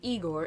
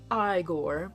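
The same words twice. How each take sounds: First: The name gets its usual pronunciation. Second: The name gets a deliberately altered pronunciation. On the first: The speaker calls it wrong. "it's not Igor" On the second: The speaker calls it right. "it's pronounced Igor"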